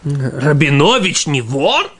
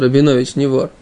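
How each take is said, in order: First: It is said as a surprised question. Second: It is said as a plain flat statement.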